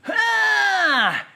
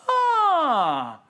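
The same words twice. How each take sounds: First: The sigh is strained and tense. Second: The sigh is breathy, relaxed and free of tension. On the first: The speaker calls it wrong. "then I think it's time for a vacation" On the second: The speaker calls it right. "a little bit breathy, but definitely comfortable and free of tension"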